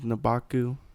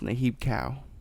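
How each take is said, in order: First: The name sounds like 'Nabaku', run together. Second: The name sounds like 'Nahib Cow', in two parts. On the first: The speaker calls it wrong. "I was saying the god, the snake god with the legs was Nabaku" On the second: The speaker calls it right. "but it's Nahib Cow. Is actually how you pronounce"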